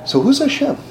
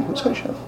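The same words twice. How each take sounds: First: Said in the usual way. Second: High, whispered question. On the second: Real, not acted. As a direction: breathe the question softly.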